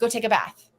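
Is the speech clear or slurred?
clear. It is said clearly at normal speed.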